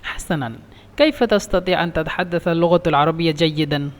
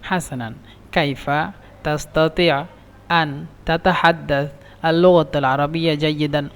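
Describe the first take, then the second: First: The words run together without breaks between them. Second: The words are broken up with pauses between them. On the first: The listener understands it easily. The speaker calls it right. "একসাথে বললে বুঝবে" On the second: It sounds like reciting poetry and is understood late. The speaker calls it wrong. "ভেঙে ভেঙে বলেন"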